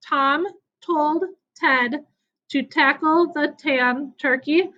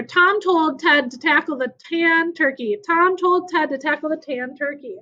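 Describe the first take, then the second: First: Slowly, word by word, with gaps between; slow demonstration. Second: Said in the usual way. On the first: Shown as a demonstration. Teacher showing pupils a tongue twister, slowly and deliberately. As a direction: say it slowly, separating each word. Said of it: "say it slowly the first time". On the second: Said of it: "try saying it even faster".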